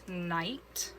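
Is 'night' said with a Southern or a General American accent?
General American. It is said with a neutral accent. The speaker calls it right. "No, it's night"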